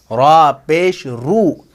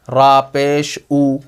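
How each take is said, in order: First: Very slow "रा पेश रू", R sounded in "रू"; correct reading demo. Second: "रा पेश ऊ" with the R dropped from the last syllable; wrong reading demo. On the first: Teacher modelling the letter's own sound, stretched "रा पेश रू". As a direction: draw out "रा पेश" and finish on a long "रू". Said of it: "जो हर्फ है उसी की आवाज़ निकालनी है". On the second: Teacher showing what not to read, faulty "रा पेश ऊ" without final R. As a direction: end "रा पेश ऊ" on a bare vowel "ऊ". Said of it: "ऐसा नहीं पढ़ेंगे". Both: Shown as a demonstration.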